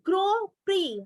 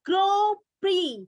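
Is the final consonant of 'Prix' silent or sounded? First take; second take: silent; silent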